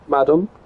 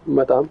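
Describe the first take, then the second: First: It is said with an English pronunciation. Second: It is said with a French pronunciation.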